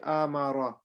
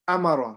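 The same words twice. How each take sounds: First: The vowels are drawn out and stretched long. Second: The vowels are short and read quickly. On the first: The speaker calls it wrong. "we don't say" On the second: The speaker calls it right. "We don't stretch them at all. We just read it fast"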